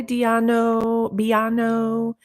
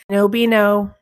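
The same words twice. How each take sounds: First: Drawn-out name in a light Spanish accent. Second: Said in the usual way. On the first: Real, not acted. Streamer greeting a viewer's name with a mistaken Spanish accent. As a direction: stretch Diano and Biano slowly, higher, Spanish-style. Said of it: "a friggin' Spanish accent or something". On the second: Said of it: "just some normal words".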